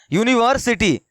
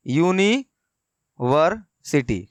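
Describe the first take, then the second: First: Said in the usual way. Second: यूनिवर्सिटी drawn out very slowly, syllable by syllable; slowly broken apart. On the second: Shown as a demonstration. Teacher to students spelling it out, very slow syllables. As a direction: stretch यूनिवर्सिटी out slowly, each syllable spaced. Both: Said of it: "देखिए इसको तोड़ के यहाँ लिखा गया है".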